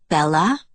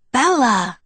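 First: Bella with a rising, questioning end. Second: Bella cried out high and loud; exclaiming. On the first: Jacob waits on the line for Bella, questioning. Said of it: "Jacob asked". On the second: Jacob recognizes Bella on the phone, exclaiming. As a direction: exclaim the name in sudden recognition. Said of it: "he exclaimed". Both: A narrator's reading.

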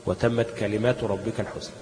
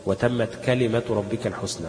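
First: كلمات with a long aa, kalimaatu; plural reading. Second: كلمة with a short a, kalimatu; singular reading. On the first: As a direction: read كلمات in the plural, long vowel before the t. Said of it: "محدش قراها إيه". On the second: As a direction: read كلمة in the singular, no long vowel before the t. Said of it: "بالإفراد". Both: Shown as a demonstration.

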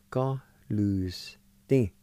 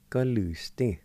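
First: Slow demo. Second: Said in the usual way. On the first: Shown as a demonstration. Teacher to students modelling the word, very slow. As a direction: Go lose thing spoken very slowly and clearly. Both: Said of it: "like this".

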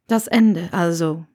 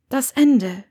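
First: Severus. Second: Lightly voiced woman answering firmly; raised, firm character voice; Hermine. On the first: Acted. Severus repeats it, low voice.

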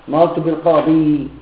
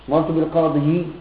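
First: Said in the usual way. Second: بالقاضي said بالقاضيِ, ending on a clear i vowel; heavy final kasra. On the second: Shown as a demonstration. Teacher shows students why the kasra on بالقاضي is dropped. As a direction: sound out بالقاضي as bil-qadiyi with the awkward kasra. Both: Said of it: "ثقيلة، ما يذكر".

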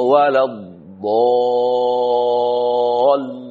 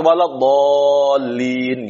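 First: "waladhdallin" chanted very slowly with the wrong stress push; wrong reading. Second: "waladhdallin" said in a mock wrong tune; mistaken reading. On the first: Teacher demonstrating the wrong recitation to students. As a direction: recite "waladhdallin" the way it must not be read. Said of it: "nggak boleh orang baca waladhdallin gitu, salah". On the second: Teacher mocking a wrong recitation of waladhdallin. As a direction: imitate the faulty "waladhdallin". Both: Shown as a demonstration.

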